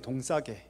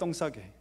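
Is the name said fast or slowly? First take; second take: slowly; fast. First: The name is said slowly and carefully. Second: The name is said quickly, the first sound tensed.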